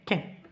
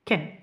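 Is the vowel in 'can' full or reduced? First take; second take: reduced; reduced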